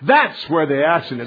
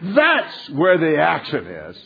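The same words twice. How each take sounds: First: It is said in a plain, even voice. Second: It is said with strong energy and feeling. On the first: "say it with me" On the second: "Again, with passion, put it into it"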